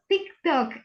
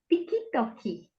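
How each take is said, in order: First: It is said as two syllables. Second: It is said as four syllables.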